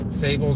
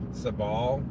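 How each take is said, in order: First: It is said with an Anglicized pronunciation. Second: It is said with the Latin pronunciation. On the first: The speaker calls it wrong. "most West Coasters ... pronounce it this way" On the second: The speaker calls it right. "should actually be pronounced sabal"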